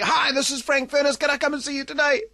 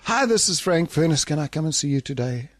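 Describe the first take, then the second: First: The caller sounds fully enthusiastic and upbeat. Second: The caller sounds noticeably less enthusiastic.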